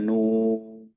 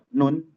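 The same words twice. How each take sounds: First: The word is recited in the Quranic reading style. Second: The word is spoken plainly as a letter name. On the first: It counts as reading the scripture. "Tapi kalau kita bacanya nun, nah itu Al-Quran" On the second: It only names the letter. "Kalau kita berucap nun, nah itu bukan Al-Quran"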